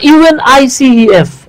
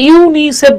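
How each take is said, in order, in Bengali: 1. প্রতিটি অক্ষর আলাদাভাবে বলা হয়। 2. এটা একটিমাত্র শব্দ হিসেবে বলা হয়। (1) "আপনি কিন্তু একবারের জন্য বলতেছেন না" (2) "আপনি কিন্তু এটাকে ইউনিসেফ বলতেছেন"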